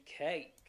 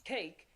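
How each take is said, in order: First: "cake" with the a widened and gliding; Southern vowel in cake. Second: Said in the usual way. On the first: Shown as a demonstration. Coach contrasting the two takes, Southern glided "cake". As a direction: drawl the a in "cake". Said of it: "it'd be cake". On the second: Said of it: "instead of it being just cake".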